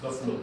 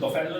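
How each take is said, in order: First: बफलो as short BUF-lo, no e sound; correct pronunciation. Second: बफेलो with a long drawn e, the way not to say it; wrong pronunciation. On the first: Teacher correcting students: बफलो said short as buf-lo. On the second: Teacher showing students the wrong way to say बफेलो. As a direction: say बफेलो as baf-E-lo, stressing the middle e. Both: Shown as a demonstration. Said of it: "इसको बफेलो नहीं बोलना".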